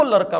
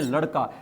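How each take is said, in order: First: लड़का pronounced "laraka". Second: Said in the usual way. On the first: Retold or imitated. Teacher showing the one particular word, लड़का with r. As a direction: swap ड़ in लड़का for r. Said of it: "केवल particular एक शब्द है लड़का". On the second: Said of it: "इसको लड़का बोल रही है".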